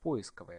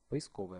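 First: The stress is on the first syllable. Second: The stress is on a later syllable. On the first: This is an outdated form. The speaker calls it wrong. "Можно делать ударение на первый слог" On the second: This is the current dictionary form. The speaker calls it right. "В соответствии со словарем следует произносить"

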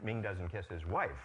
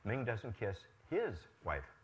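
First: The word wife is stressed with higher pitch. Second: The word his is stressed with higher pitch. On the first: He kisses other family members but not his wife. "Now he kisses only his children" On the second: He kisses someone else's wife. "Whose wife does he kiss?"

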